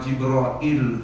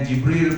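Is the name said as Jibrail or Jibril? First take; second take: Jibrail; Jibril. First: The name ends with a longer -brail sound. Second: The name ends with a short -bril sound. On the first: "nak baca dengan nama Jibrail pun boleh juga" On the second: "Nak baca dengan Jibril pun boleh"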